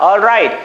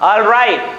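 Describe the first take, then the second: No difference in how they are said.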